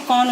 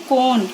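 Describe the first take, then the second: First: कॉन with a short, open "o"; short O sound. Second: कोन with a long, round "oh"; long O sound. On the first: Teacher showing children the short sound, short O in कॉन. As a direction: say कॉन with the open vowel of hot. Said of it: "short sound". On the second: Teacher showing children the long sound, long O in कोन. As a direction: say कोन as "kohn", vowel held long. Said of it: "long sound". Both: Shown as a demonstration.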